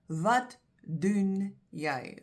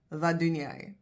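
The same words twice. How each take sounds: First: Wat doen jy drawn out very slowly, falling on Wat; slow demo. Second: Said in the usual way. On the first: Shown as a demonstration. Teacher modelling the correct Afrikaans use, very slowly. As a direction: stretch each word of Wat doen jy for the learner. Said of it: "then you use". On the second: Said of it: "you won't say".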